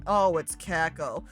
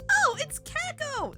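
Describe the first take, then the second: First: It is said in a flat, unexcited tone. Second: It is said in a lively, excited tone. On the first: The speaker calls it wrong. "don't say it like that" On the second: The speaker calls it right. "That is way more exciting"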